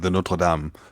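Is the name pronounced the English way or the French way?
French. The name is pronounced the French way. This is the proper pronunciation. "I say"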